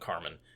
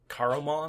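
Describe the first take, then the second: First: The name is said with two syllables. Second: The name is said with three syllables. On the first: The speaker calls it wrong. "Carmen always shortens it" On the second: The speaker calls it right. "there's an extra syllable in there"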